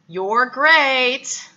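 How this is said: It is said in an insincere, non-genuine tone. The praise is not really meant. "a intonation that was non-genuine"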